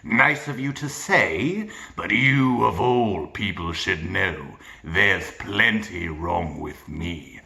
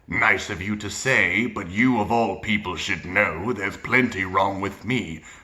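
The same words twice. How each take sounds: First: The pitch moves up and down within a gravelly voice. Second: The pitch stays the same throughout the line. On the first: The speaker calls it right. "he plays with it" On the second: The speaker calls it wrong. "it's not the same pitch throughout. He's not saying like"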